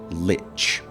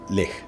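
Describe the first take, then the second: First: The word ends with a 'tch' sound. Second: The word ends with a sound close to 'k'. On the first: This is the most common way people say it. "as if it had a T before the C H" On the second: This is the speaker's own way of saying it. "I don't say lick, but it's close to that"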